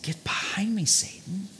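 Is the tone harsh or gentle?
gentle. It is said in a gentle, loving tone. It is a loving correction. The speaker calls it right. "I think he said"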